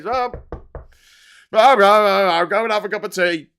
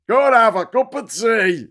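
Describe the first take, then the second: First: Speaker of Parliament. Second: Louder mock Speaker calling over the din; Speaker of Parliament. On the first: Acted. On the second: Speaker to heckling politicians, mock bellow. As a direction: bellow it like a Speaker restoring order. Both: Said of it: "the speaker has to say".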